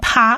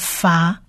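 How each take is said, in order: First: The syllable begins with a p sound. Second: The syllable begins with an f sound. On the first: The speaker calls it wrong. "它不念啪" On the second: The speaker calls it right. "而是念发"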